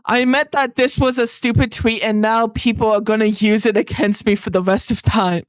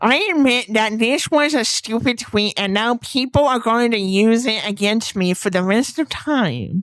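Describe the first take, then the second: First: It is said in his normal voice. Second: It is said in a put-on nerdy voice.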